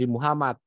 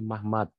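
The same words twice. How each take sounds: First: The name is said with all its vowels. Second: The name is said with reduced vowels. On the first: The name is read with its vowel marks. "Kalau baca cepat pakai huruf vokal jadi Muhammad" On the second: The name is read without vowel marks. "Kalau nggak ada nggak ada huruf vokalnya jadi Muhammad"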